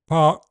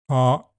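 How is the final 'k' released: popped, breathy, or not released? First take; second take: not released; popped. First: The final 'k' ends with no audible release. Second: The final 'k' ends with a sharp popped release. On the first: "park has no audible release" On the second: "Park is an adjective"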